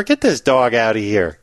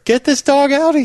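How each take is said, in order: First: Said in the usual way. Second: High, worked-up order to get out; mock-outraged bartender. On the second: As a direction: throw the customer out, pitch soaring. Bartender repeats order, escalating.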